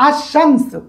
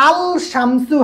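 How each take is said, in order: First: আশামসু with no লাম, শ doubled; right pronunciation. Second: আল শামসু with the লাম clearly sounded; wrong pronunciation. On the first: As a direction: run আশামসু together, a held শ in place of the লাম. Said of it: "আল শামসু হয় না". (সঠিক উচ্চারণ, আশামসু লাম ছাড়া) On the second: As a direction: say আল শামসু with a distinct l before শামসু. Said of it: "হয় না". (ভুল উচ্চারণ, আল শামসু লাম সহ) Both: Shown as a demonstration.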